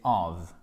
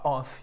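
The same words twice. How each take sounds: First: Of ending on a voiced V, low-pitched; correct V ending. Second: Of said with an F, like off; wrong F ending. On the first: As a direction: finish of with a buzzing V sound. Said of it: "c'est pas of you, c'est of". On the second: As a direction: end of on a voiceless F, as the mistake. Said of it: "c'est pas of you". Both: Shown as a demonstration.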